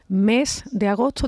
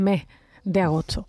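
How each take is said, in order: First: The syllable-final s sounds are fully pronounced. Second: The syllable-final s sounds are weakened or dropped. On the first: "en lugar de decir" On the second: "los andaluces ... dicen"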